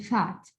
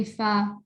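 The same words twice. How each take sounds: First: Said in the usual way. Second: "fat" broken into "fa" and a separate "t"; split single syllable. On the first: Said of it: "I say fat". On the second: Shown as a demonstration. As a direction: wrongly cut "fat" apart before the final t. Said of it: "I don't say fat".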